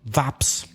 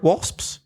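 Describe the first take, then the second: First: The word begins with a V sound. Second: The word begins with a W sound. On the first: The speaker calls it wrong. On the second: The speaker calls it right.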